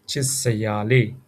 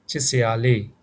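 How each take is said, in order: First: "Chit sa ya le" repeated lower, Burmese tones; repeat for students. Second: "Chit sa ya le" with a falling "le"; Burmese model phrase. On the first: Teacher repeats it for learners. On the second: Teacher models the phrase for learners. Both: Shown as a demonstration. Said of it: "We can say".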